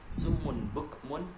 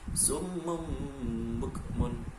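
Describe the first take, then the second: First: The first word ends with a clear n sound. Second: The first word ends with an m sound. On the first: The speaker calls it wrong. "Yang awalnya dibaca summun bukmun" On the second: The speaker calls it right. "harus dibaca menjadi summum bukmun"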